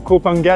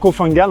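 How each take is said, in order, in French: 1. La consonne du milieu est un son P. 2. La consonne du milieu est un son F. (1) "ça se prononçait euh, Kopangan" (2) "et non Kofangan. En fait, on prononce pas le H"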